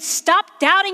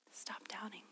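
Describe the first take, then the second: First: It is said in a harsh, loud voice. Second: It is said in a soft whisper. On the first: It is a scolding rebuke. The speaker calls it wrong. "That's harsh" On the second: It is a private, gentle reassurance. The speaker calls it right. "what if Jesus just whispers so that nobody else can hear?"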